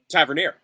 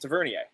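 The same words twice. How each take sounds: First: The name is said with English-style pronunciation. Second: The name is said with French-style pronunciation. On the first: The speaker calls it right. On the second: The speaker calls it wrong.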